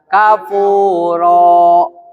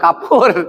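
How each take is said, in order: First: The word ends with a vowel held two counts. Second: The word ends abruptly on a silent consonant. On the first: The speaker calls it right. "Berarti kafuro. Dua harokat ya" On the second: The speaker calls it wrong. "Gak boleh kapur"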